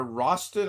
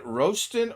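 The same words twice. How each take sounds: First: "Roston" with a short, open O; "Roston" as RAH-stun; alternative pronunciation guess. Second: "Roston" with a long O, like "roast"; "Roston" as ROH-stun; first pronunciation guess. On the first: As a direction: say "Roston" with the vowel of "lost". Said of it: "I'm not sure how you pronounce his name". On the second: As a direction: say "Roston" with the O of "rose". I'm not sure how you pronounce his name. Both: Shown as a demonstration.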